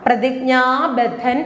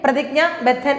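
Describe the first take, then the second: First: The vowel after jña is long. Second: The vowel after jña is short. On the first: The speaker calls it right. "പ്രതിജ്ഞ കഴിഞ്ഞിട്ട് ദീർഘമുള്ളതും കൂടി ഓർക്കുക" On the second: The speaker calls it wrong. "എന്നല്ല"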